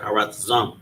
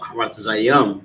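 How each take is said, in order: First: The word ends with a short 'am' syllable. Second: The word ends with an extra 'ya' syllable. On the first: The speaker calls it right. "but Haratazam" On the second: The speaker calls it wrong. "Not Haratazayam"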